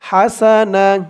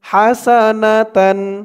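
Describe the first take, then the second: First: The word is cut short, ending in -na. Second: The word is said in full, ending in -tan. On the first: The reader stops at this word. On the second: The reading continues without a stop.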